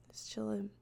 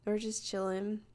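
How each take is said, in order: First: Breathy whisper, no voice; whispering it to herself; whispered aside. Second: Said in the usual way. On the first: Shown as a demonstration. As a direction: drop to a secret whisper. Whispered repeat of the line.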